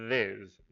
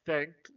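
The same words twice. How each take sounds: First: "this" with a loud, long buzzing TH; voiced TH. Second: "think" with the TH blown, no buzz; voiceless TH. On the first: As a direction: hum firmly into the TH of "this". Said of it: "o segundo é". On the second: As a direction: air only on the TH of "think". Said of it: "Então o primeiro é". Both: Shown as a demonstration.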